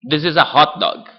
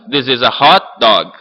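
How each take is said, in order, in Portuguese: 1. "Hot" e "dog" saem juntas, sem pausa. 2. As duas palavras são tônicas, com uma pausa entre elas. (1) "Eu falo mais junto" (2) "Com sílabas tônicas nas duas palavras. Tem uma pausa"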